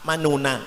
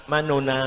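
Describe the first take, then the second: No difference in how they are said.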